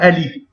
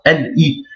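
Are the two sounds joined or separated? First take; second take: joined; separated. First: The two sounds are joined without a break. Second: The two sounds are said separately, unlinked. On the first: The speaker calls it wrong. "On ne dit pas L I" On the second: The speaker calls it right. "On sépare"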